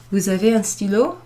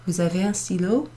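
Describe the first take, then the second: First: Stylo rising at the end of Vous avez un stylo; rising question. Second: Stylo rising on a quieter repeat of Vous avez un stylo; softer rising question. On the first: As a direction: lift the voice on stylo to make it a question. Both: Shown as a demonstration. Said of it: "using your intonation".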